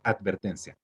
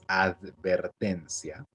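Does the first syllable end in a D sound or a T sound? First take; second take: T; D. First: The first syllable ends with a T sound. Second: The first syllable ends with a D sound. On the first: "pero normalmente alguien diría advertencia" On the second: "La palabra advertencia es advertencia"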